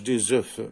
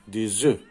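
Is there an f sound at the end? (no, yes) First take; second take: yes; no. First: The word ends with an audible f sound. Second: The word ends in a vowel with no f. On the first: The speaker calls it wrong. "مكنطقوش" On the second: The speaker calls it right. "لو بلوريال ديالو اش كنقولو؟"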